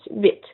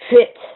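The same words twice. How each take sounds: First: The word starts with no H sound. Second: The word starts with an audible H sound. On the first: The speaker calls it right. "we don't really pronounce the H" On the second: The speaker calls it wrong. "and not huit"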